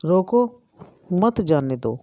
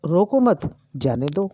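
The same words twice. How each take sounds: First: Two commands, रोको and then मत जाने दो; pause after रोको. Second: रोको मत run together with मत rising, then जाने दो; pause after मत. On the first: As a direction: cut the sentence after रोको. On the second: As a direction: move the break to after मत. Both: Shown as a demonstration. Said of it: "अर्थ का अनर्थ हो गया".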